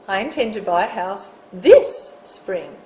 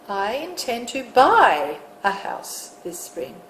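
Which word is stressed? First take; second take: this; buy. First: The stress is on this. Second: The stress is on buy.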